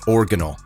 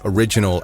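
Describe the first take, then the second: First: The word is pronounced the way a small child would. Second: The word is pronounced in the usual way. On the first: The speaker calls it wrong. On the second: The speaker calls it right.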